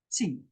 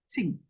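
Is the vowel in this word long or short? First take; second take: short; short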